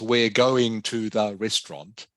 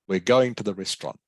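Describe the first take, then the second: First: The word 'to' is said fully and clearly. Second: The word 'to' is reduced to a weak form. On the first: The speaker calls it wrong. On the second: The speaker calls it right. "use the weak pronunciation of prepositions"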